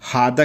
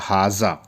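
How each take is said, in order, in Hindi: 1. बीच का व्यंजन 'd' की आवाज़ है। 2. बीच का व्यंजन 'z' की आवाज़ है। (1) "बाकी सारी कंट्री में हादा ही बोलते हैं" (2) "जेड वाला हाजा"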